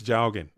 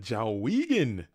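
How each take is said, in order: First: The name is said as Jowgen. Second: The name is said as Jawigan. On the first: This is the card's actual name. The speaker calls it right. "I know that the card's name is Jowgen" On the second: A fellow player always said it this way. The speaker calls it wrong. "he would always call it Jawigan"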